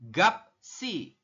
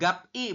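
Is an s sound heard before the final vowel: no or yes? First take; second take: yes; no. First: An s sound comes before the final vowel. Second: The final vowel follows the p directly. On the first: The speaker calls it right. "pemenggalannya adalah gap si" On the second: The speaker calls it wrong. "bukan gap i"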